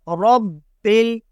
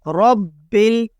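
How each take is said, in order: Both takes have the same delivery.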